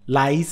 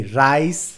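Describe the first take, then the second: First: "লাইস" with a clear l; l version; lice with l. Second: "রাইস" drawn out slowly on a clear r; r version, slow; rice with r. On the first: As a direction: start "লাইস" on an l, not an r. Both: Shown as a demonstration. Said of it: "সম্পূর্ণ different জিনিস".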